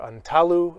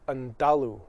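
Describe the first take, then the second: First: The middle consonant sounds like a T. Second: The middle consonant sounds like a D.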